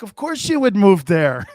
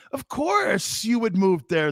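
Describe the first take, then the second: First: Louder quote broken by laughter; amused wife, laughing as she says it. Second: Slow, shouted Of course you would move there; slow emphatic shouted repeat. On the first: Retold or imitated. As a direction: laugh through it as his wife. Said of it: "She's like". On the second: Shown as a demonstration. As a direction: hammer each word home.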